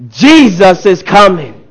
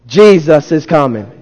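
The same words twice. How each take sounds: First: Slow, emphatic proclamation; rousing preacher's cry, words stretched out; as if seeing him coming. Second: Said in the usual way. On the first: Shown as a demonstration. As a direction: proclaim it like he's arriving right now. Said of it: "Say it like you see him coming". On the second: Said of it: "Say it like you mean it".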